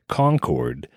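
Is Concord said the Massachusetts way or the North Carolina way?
North Carolina. It is said the North Carolina way. "like they do in North Carolina"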